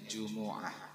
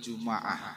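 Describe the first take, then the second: First: The m is followed by a u vowel. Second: The m is followed by an a vowel. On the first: "mendommahkan huruf mim" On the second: "mimnya difathahkan"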